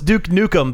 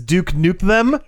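First: The name ends in a short reduced 'nukem'. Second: The name ends with a full 'them'. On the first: The speaker calls it wrong. "I always thought it was Duke Nukem" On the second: The speaker calls it right. "but apparently it's Duke Nuke Them"

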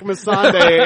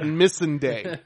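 First: The name is said with a foreign accent. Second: The name is said with an American accent. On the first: This is how the actors in the show say it. "they say it with an accent" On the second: This is how the showrunner says it. "He says it like an American"

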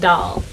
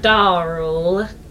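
First: The word is said without an R sound. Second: The word is said with an R sound. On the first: The speaker calls it right. "no R's allowed" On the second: The speaker calls it wrong. "that's not how you say it"

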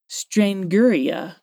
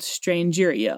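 First: The word begins with a hard g, like strangle. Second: The word begins like the word strange. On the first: This is how dictionaries give it. "someone was like" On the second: This is how it is commonly said in the South. "almost like strange uria"

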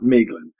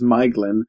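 First: The first vowel sounds like the letter A. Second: The first vowel sounds like the word eye. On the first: The speaker calls it wrong. "not Maeglin" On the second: The speaker calls it right. "is Maeglin"

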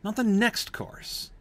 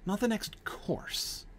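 First: The stress falls on the word 'next'. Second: The stress falls on the word 'course'. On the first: It was a course, just not the very next one. "he stresses the word next" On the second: It was the next something, just not a course. "you shift the stress to the last word"

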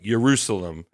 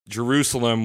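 First: The word starts without an English J sound. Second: The word starts with an English J sound.

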